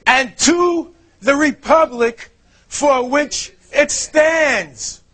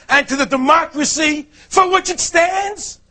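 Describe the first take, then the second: First: "republic" slow and weighted, whole phrase drawn out; stress on republic. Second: "democracy" said evenly, a touch higher, as the wrong version; misquoted democracy line. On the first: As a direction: lean on "to the republic", slowly. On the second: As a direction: read "And to the democracy for which it stands" as the false line. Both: Shown as a demonstration. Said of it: "It doesn't say".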